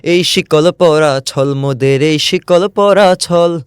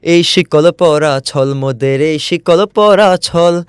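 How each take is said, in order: No difference in how they are said.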